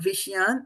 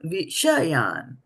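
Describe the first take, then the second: First: The middle vowel is swallowed and dropped. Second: The middle vowel is fully pronounced. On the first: The speaker calls it wrong. "not Vishyan" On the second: The speaker calls it right. "don't eat the vowels for breakfast"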